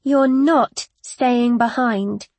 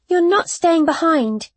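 First: Slow, weighted insistence on NOT; measured, immovable refusal; firm. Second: High-pitched, urgent objection; quick-rising protest; insistent. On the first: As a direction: repeat it firmly, leaning on "not". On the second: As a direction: object at once, voice raised in pitch. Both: A narrator's reading. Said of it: "I repeated more firmly".

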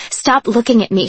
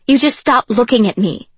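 First: Half-voiced yell at the listener; a restrained retold scream, not full force; mild mock scream. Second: Louder, insistent mock yell; retold scream. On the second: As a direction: push it a little harder as a repeated scream. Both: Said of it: "she'd scream".

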